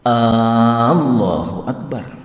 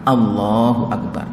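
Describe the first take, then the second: First: The opening A vowel is drawn out. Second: No vowel is drawn out.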